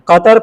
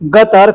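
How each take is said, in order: First: The word begins with a deep q sound. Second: The word begins with a g sound. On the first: "बड़ा काफ" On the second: "उसको ग के तरह बोलते हैं"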